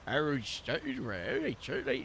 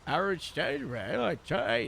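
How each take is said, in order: First: "Harold stayed well" slow, with the tongue pushed down for a deeper sound; the deep-set take of the Harold accent. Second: "Harold stayed well" in the same accent without the pushed-down tongue; the plain-throat take of the Harold accent; Harold accent, not pushed down. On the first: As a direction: press the tongue down and drag out "stayed". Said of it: "push the tongue down to make it a bit deeper". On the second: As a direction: lighter take, tongue relaxed, no extra depth. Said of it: "the accent without the pushing down". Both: Shown as a demonstration.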